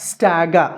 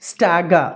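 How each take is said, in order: Both takes have the same delivery.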